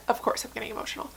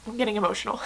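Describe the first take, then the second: First: Rushed, breathless whisper through tears; tearful whisper. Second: Getting emotional. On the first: Admitting to viewers she's tearing up, in a quick tearful whisper. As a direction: hurry the words out as the tears come. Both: Real, not acted.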